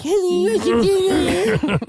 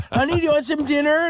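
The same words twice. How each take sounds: First: High, slow whiny parroting; mocking whine. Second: Imitating sweet wife. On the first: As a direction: echo her sweetness back as a nasty sneer. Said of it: "And I'm like". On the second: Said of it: "just being super sweet".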